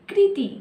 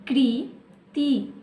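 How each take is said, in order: First: Said in the usual way. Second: Kriti spelt out slowly, part by part; slowed to syllables. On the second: Shown as a demonstration. Teacher sounding out a word for young pupils, slowly. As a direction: break Kriti into slow pieces. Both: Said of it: "कैसे पढ़ेंगे इसे?".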